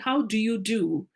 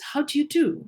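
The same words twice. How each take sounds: First: Each word is said separately and fully. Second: The words are run together in connected speech. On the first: The speaker calls it wrong. "we may not say" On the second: The speaker calls it right. "the most common form is"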